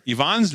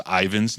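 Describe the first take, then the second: First: Yvonne as ee-VAHN, stressed at the end; Yvonne the Russian-name way, ee-VAHN; correct pronunciation of Yvonne. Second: Ivan with a long English EYE at the start; wrong pronunciation of Ivan. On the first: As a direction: say Yvonne with an EE start and open AH. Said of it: "That's how you say it". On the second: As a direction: say Ivan as EYE-vun, stress up front. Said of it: "saying it the wrong way". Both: Retold or imitated.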